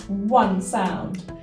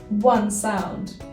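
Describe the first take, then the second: The two takes are said the same way.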